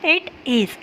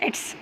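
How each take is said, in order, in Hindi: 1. दो अलग शब्द पूरे बोले जाते हैं। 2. दोनों शब्द मिलकर एक छोटा शब्दांश बन जाते हैं। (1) "आप उसको अलग अलग लिख रही है इट इज़ तो आपने पढ़ेंगे इसको इट इज़" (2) "शॉर्ट फॉर्म में लिख रही है तो आप उसको पढ़ेंगे इट्स"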